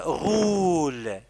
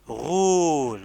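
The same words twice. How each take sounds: First: Stretched teaching voice; slow dictation. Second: Said in the usual way. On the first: Shown as a demonstration. Teacher dictating "roule" to the pupil, slowly and deliberately. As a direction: say "roule" very slowly, holding the vowel.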